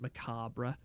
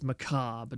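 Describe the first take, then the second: First: The final 'bre' part is pronounced. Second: The final 'bre' part is left silent. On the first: The speaker calls it wrong. "not macabre" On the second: The speaker calls it right. "you don't pronounce the the B part"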